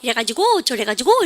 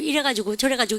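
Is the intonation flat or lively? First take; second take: lively; flat. First: The pitch moves a lot, sounding excited. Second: The pitch stays level, sounding monotone. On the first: This is how Seoul speakers talk. "되게 호들갑스럽게 그러니까 성조가 살" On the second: This is how Daegu speakers talk. "대구 애들은 말할 때 보면 이렇대요"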